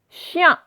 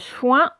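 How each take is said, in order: First: A y glide comes before the nasal vowel. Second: A w glide comes before the nasal vowel. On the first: The speaker calls it right. "c'est yin" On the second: The speaker calls it wrong. "ce n'est pas chouin"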